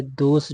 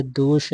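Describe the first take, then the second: First: दोष said with a plain s; wrong sibilant. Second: दोष ending in sh; correct sibilant. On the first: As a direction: say "dos" for दोष. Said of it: "दोष ऐसे लिखेंगे". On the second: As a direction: say "dosh" for दोष. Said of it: "ऐसे लिखेंगे". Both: Shown as a demonstration.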